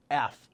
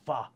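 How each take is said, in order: First: Said in the usual way. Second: F sounded out as "fuh". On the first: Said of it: "with F". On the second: Shown as a demonstration. Memory coach linking a name to eight, F said "fuh". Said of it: "or the F sound".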